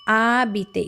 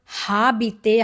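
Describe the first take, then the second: First: The word starts with a vowel; no h sound. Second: The word starts with a breathy h sound. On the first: The speaker calls it right. "letter H, is silent letter" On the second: The speaker calls it wrong. "it is not habiter"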